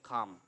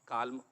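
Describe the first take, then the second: First: The L is silent in the word. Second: The L is pronounced in the word. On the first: The speaker calls it right. "तो पढ़ेंगे खाम" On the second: The speaker calls it wrong. "Not काल्म"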